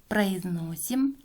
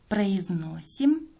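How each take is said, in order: The two takes are said the same way.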